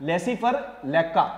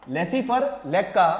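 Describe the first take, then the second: No difference in how they are said.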